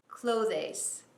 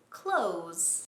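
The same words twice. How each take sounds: First: A clear th sound is heard before the ending. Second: It sounds just like the word close. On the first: The speaker calls it wrong. "it's not clothes" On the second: The speaker calls it right. "Like close the door"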